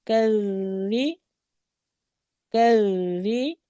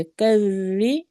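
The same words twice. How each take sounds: First: कर्री slowly, ra doubled and gentle; soft doubled ra. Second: कर्री slow, soft doubled ra after the reminder. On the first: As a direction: ease into कर्री with a soft held ra. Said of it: "ये भी नरमी से पढ़ा जाएगा". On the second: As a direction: gently hold the ra in कर्री. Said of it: "नरमी से।". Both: Shown as a demonstration.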